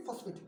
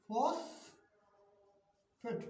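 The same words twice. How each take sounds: First: Said in the usual way. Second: ফসফেট drawn out in two parts, ফস, pause, ফেট; teacher slowly sounding out ফসফেট; pronunciation demo. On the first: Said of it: "এর উচ্চারণ কি?". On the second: Shown as a demonstration. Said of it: "এটাকে উচ্চারণ করে ফসফেট".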